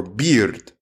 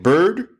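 First: BEARD with an EE-like vowel before the r. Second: BIRD with the r-coloured vowel of HER. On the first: Teacher contrasting two similar words, beard vowel. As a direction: say "beard" as BEE-rd. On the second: Teacher contrasting two similar words, bird vowel. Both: Shown as a demonstration. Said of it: "you either are saying bird or beard".

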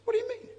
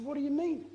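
First: Very high, incredulous "what do you mean"; astonished squeak. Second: Much higher, puzzled "what do you mean"; surprised question. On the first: Preacher pressing the old woman again in disbelief, very high. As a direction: jump way up in disbelief. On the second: Preacher retelling his startled question to the old woman, much higher. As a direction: react in startled disbelief. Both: Retold or imitated. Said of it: "I said".

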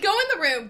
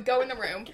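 First: Laughing. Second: Said in the usual way. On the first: Real, not acted. Shooing friend out laughing.

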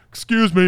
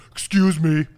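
First: A loud, sing-song polite excuse me; loud mock polite. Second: A loud, overly polite excuse me; faking manners, loud and innocent; mock polite. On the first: Student repeating fake apology to the teacher, louder and innocent. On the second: Student faking politeness to annoyed teacher, loud innocent excuse me. Kid fakes politeness after farting.

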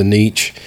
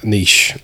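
First: "Niche" with a hard tch at the end; unsure pronunciation. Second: "Niche" with a soft sh at the end, lower and softer; corrected pronunciation. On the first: Host naming the restaurant, unsure of it, says "Niche" as "neetch". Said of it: "I guess that's how you say it". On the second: Host repeating a friend's correction, says "Niche" as "neesh". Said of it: "butchering that". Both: Real, not acted.

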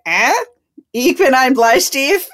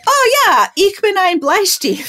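First: Higher, louder, questioning German with a rise; unsure repeat. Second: High, loud, drawn-out German showing off; mock-confident boast. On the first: Retold or imitated. Joker facing silent stares, repeating it questioningly. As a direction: try the joke on them as a slow question. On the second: Newcomer showing churchwomen her German, with mock confidence. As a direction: proudly announce it at a much higher pitch.

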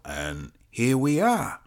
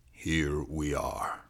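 First: Slow "here we are", lifted on "are"; drawn-out wrap-up. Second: Low, soft, slow "Here we are"; subdued echo. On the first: Cop sums up the witness's account, drawn out. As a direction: stretch "here we are", lifting "are" before it falls. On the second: Cop lets the account sink in, subdued. Same words echoed, subdued. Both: Acted.

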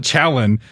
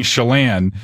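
First: Chalon said as CHA-lon, stress on the first syllable; mock the wrong reading Chalon, CHA-lon; wrong pronunciation. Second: Chelan said slowly as shə-LAN, stress on the second syllable; correct local pronunciation. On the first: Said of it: "you can't call it Chalon". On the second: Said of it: "an objective way of saying Chelan". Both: Shown as a demonstration.

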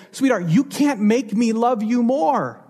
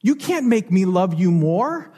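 First: Can't leaned on, a little higher and gentle; tender parent. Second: Gentle echo, rising at the end. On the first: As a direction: reassure the child, pressing on can't. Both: Retold or imitated. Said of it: "you would look that child in the eyes and you would say".

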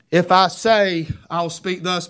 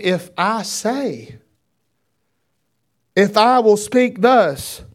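First: Said in the usual way. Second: "If I say" drawn out, "if I will speak thus" slow and louder; slow emphatic rereading. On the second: Shown as a demonstration. Preacher rereads the verse for his congregation, slow and emphatic. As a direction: stretch "I say", then land hard on "speak thus".

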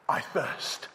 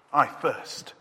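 First: Voiceless, drained whisper of thirst; breathy whisper. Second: Voiced, a bit louder cry of thirst. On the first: Acted. Jesus on the cross breathing his thirst, whispered. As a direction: barely breathe the words out. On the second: Jesus on the cross crying his thirst aloud. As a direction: push the second one out as a cry.

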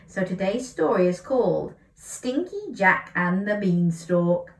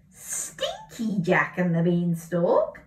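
First: Said in the usual way. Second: Slow puzzled rising question. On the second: Shown as a demonstration. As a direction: wonder aloud at the title, slowly. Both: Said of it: "That's not right, is it?".

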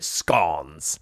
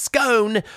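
First: "scones" said to rhyme with dons; short O in scones. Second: "scone" said to rhyme with bone; long O in scone. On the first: British guest showing the usual English way, "scones" with short O. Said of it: "we pronounce it scones". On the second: British guest showing the spelt sound, "scone" with long O. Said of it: "which should be pronounced scone". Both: Shown as a demonstration.

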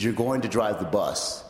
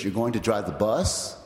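First: Retold statement, BUS falling at the end; firm repetition. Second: Retold line with BUS rising at the end; questioning suggestion. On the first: Chad answering the startled "What?", firm repetition. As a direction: let "bus" drop as a settled fact. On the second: Chad springing an idea on the speaker, questioning suggestion.

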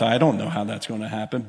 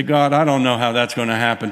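First: Chuckling under breath. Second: Said in the usual way. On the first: Retold or imitated. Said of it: "I'm kinda chuckling under my breath".

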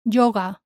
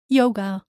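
First: Yoga as JO-ga; hard Spanish Y in Yoga; Spanish pronunciation. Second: Yoga as YOH-guh; English pronunciation. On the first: Teacher shows learners the Spanish word, JO-ga for Yoga. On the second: Teacher contrasts with Spanish, English YOH-guh for yoga. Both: Shown as a demonstration. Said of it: "same in English and in Spanish".

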